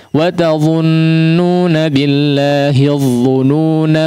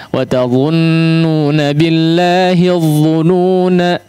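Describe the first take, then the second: Both takes have the same delivery.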